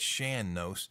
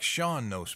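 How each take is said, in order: First: The first word sounds like 'Shan'. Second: The first word sounds like 'Shawn'. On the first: The speaker calls it right. "it's Shan Nos" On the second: The speaker calls it wrong. "it looks like Sean Nos maybe, but no"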